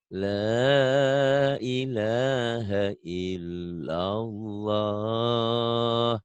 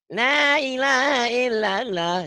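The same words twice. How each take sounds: First: The voice is big and full. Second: The voice is thin and small.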